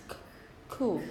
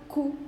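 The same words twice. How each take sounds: First: "c-, cool" with a puff of air on the k; slight aspiration. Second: "cool" with an unaspirated k, no puff of air; without aspiration. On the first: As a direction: isolate the breathy k, then say "cool". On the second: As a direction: say "cool" with a hard Spanish-style k. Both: Shown as a demonstration. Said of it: "a little bit of aspiration".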